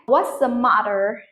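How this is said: An American accent with a weak, softened T. "So it's like that in American pronunciation"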